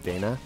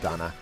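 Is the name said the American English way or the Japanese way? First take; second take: American English; Japanese. First: The name is said the American English way. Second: The name is said the Japanese way. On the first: "an American English speaker, I think I naturally want to default to Dana" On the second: "the Japanese would be Donna"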